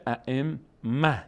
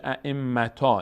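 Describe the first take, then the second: First: ائمه slowly, ending in -mah; correct pausal form. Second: ائمتا ending in an open long -taa; incorrect pausal form. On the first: Teacher corrects to the right stop, h ending. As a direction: drop the te and close ائمه on h. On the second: Teacher shows learners the wrong stop, -taa ending. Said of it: "دیگه نمیشه ائمتا". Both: Shown as a demonstration.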